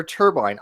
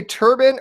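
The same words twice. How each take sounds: First: "turbine" ending like "bine"; long-i pronunciation. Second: "turban" ending in a short "bin"; turban pronunciation. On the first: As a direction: say "turbine" to rhyme with combine. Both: Shown as a demonstration. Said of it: "Do you guys say turban or turbine?".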